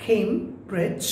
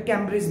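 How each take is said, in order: First: "কেমব্রিজ" with an ay vowel, KAYM-brij; correct pronunciation. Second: "ক্যামব্রিজ" with a short a, as in cam; mistaken pronunciation. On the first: Teacher correcting the word Cambridge, correct pronunciation. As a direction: say "কেমব্রিজ" starting like came, in two clear beats. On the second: Teacher showing the wrong Cambridge, mistaken pronunciation. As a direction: open the first vowel of "ক্যামব্রিজ": KAM-brij. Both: Shown as a demonstration. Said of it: "এটা ক্যামব্রিজ না".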